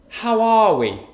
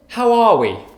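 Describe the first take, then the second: First: The word 'are' carries strong stress. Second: The same.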